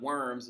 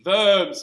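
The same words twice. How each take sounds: First: It is said like the English word worms. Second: It is said with a German pronunciation. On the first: The speaker calls it wrong. "it's not worms" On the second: The speaker calls it right. "It's supposed to be Worms. All right, so because it's in Germany"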